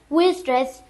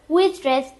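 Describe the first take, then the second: The two takes are said the same way.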